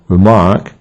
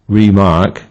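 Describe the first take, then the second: First: The stress is on the second syllable. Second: The stress is on the first syllable. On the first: To comment. "means to comment and thus it is stressed on the second syllable" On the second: To mark something again. "means to mark something again and thus is stressed on the first syllable"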